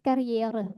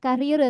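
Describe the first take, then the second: First: It is longer and ends on a vowel. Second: It is short and ends on an R sound. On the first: The speaker calls it right. "tapi karriere" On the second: The speaker calls it wrong. "Nggak karir"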